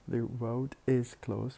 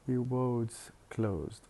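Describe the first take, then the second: First: The word 'is' is said in full. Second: The 's' is joined onto 'road'.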